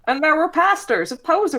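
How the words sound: It is said in a put-on imitation voice.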